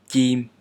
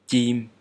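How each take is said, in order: No difference in how they are said.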